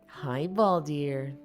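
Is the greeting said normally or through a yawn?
normally. The greeting is spoken clearly without yawning. The speaker calls it right.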